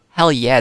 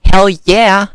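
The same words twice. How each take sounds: First: Said in the usual way. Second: Loud, higher burst of enthusiasm; fired-up, punchy exclamation; emphatic cheer. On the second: Real, not acted. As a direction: shout the answer with gusto. Emphatic answer to own question.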